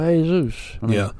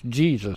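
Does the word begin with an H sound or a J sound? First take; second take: H sound; J sound. First: It begins with an H sound. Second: It begins with a J sound. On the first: "But they go Jesus" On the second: "every time I've ever seen that spell out, it's Jesus"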